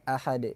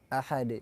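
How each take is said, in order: Both takes have the same delivery.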